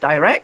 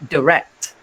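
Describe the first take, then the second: First: It is said in a British accent. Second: It is said in an American accent. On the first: "not direct" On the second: "American English, they pronounce it as direct"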